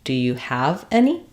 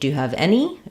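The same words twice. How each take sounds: First: The stress falls on the word have. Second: The stress falls on the word any. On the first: "The typical stress pattern is to stress the verb" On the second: "I don't want to stress just on any"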